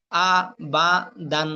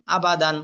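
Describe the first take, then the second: First: আ, বা, দান one syllable at a time; broken syllables. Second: Said in the usual way. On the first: Shown as a demonstration. Teacher showing learners broken pronunciation, syllable by syllable. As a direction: break আ, বা, দান apart, pausing after each. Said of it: "ভাঙ্গা উচ্চারণ করবেন একটা একটা করে". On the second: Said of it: "ভাঙ্গা উচ্চারণ একটা একটা করে পড়লেন".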